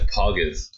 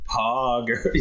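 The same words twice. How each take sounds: First: The word is said short and clipped. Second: The word is drawn out long.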